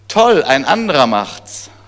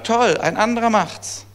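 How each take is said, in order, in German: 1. Er wird in einem ironischen, spöttischen Ton gesagt. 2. Er wird in einem aufrichtigen, anerkennenden Ton gesagt. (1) "Kann man natürlich ironisch sagen" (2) "kann man aber auch einfach korrekterweise sagen"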